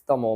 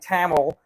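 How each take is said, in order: First: It is said with a native Tamil pronunciation. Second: It is said with a North American pronunciation. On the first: "but it's Tamil" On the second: "to the North American pronunciation"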